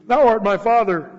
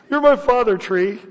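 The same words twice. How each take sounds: First: Said in the usual way. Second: "You're my father, tree." pitched up and louder; mock the idol worshippers. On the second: Mocking paraphrase, raised voice.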